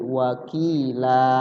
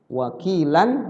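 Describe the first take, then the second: First: The word ends with a long vowel, no n. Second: The word ends with a short vowel and n. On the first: "Kalau berhenti di situ wakaf di situ jadi panjang" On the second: "wakilan sebenarnya pendek"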